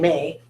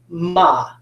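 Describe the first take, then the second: First: The vowel is a long 'ay' sound. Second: The vowel is an open 'ah' sound. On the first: The speaker calls it wrong. "It's not saying A, is it? I don't say May" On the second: The speaker calls it right. "Sometimes when it's open, it can say ah. Okay, so this is ma"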